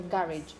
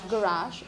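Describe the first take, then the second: First: The ending has an anglicized pronunciation. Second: The ending keeps a French-sounding pronunciation. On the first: The word is adapted to English habits. "most of these words that originally came from French are, are pronounced with this ending" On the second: The word keeps its original foreign form. "some people decide to keep the French origin"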